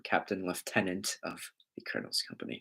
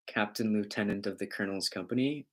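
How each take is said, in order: First: Lieutenant said as British "lef-tenant", softer and lower. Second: Said in the usual way. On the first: Shown as a demonstration. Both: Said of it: "or in proper term".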